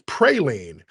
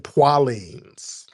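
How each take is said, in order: First: It is said in the standard general pronunciation. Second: It is said in the Louisiana local pronunciation. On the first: An outsider is trying to correct the locals. "it's it's praline" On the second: This is how local people say it. "they say poilines"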